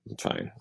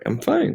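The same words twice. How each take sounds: First: It is said in an unhappy, sarcastic tone. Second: It is said in a happy, cheerful tone. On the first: The speaker is not really fine. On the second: The speaker really is fine.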